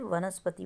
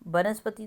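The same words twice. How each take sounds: First: The word begins with a v sound. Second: The word begins with a b sound. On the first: The speaker calls it right. "वनस्पति बोलते हैं" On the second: The speaker calls it wrong. "वनस्पति तो नहीं बोलते"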